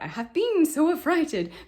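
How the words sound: The word 'been' carries the stress. The speaker calls it wrong. "Don't hit the word been so much. I personally want to always hit like"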